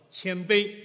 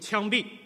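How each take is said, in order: First: It is pronounced clearly as qianbei. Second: It is pronounced like qiangbi, with an accent. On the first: Be humble. The speaker calls it right. "你口齿很清楚" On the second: You will be executed. The speaker calls it wrong. "发成呢枪毙"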